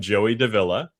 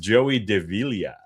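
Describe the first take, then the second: First: The name is said with an English pronunciation. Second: The name is said with a Filipino pronunciation. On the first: "if you anglicize my last name" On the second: "The proper Filipino pronunciation"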